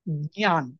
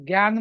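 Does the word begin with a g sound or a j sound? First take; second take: j sound; g sound. First: The word begins with a j sound, then y. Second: The word begins with a gy sound. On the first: The speaker calls it right. "त्याचा खरा उच्चार आहे ज्ञान. जला य" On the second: The speaker calls it wrong. "Hindi भाषिक जे जीवाय करतात, ज्ञान म्हणतात"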